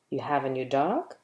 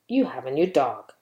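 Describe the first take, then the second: First: It is said as a question. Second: It is said as a plain statement. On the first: The speaker is asking whether it is true. "Or you can ask a question with it" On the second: The speaker is simply stating a fact. "You can use it to give a statement"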